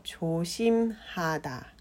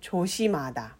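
First: Each syllable is said slowly and separately. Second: The syllables are run smoothly together. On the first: "ゆっくり言うと" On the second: "さらっとつなげて言うと"

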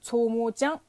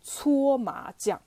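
First: It is said in a local dialect. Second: It is said in Standard Mandarin.

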